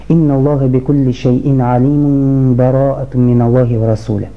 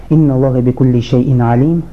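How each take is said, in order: First: The verses are joined with no pause between them. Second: The recitation stops after 'alim' for a pause. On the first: "Можно связать эти суры" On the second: "Можно сделать паузу"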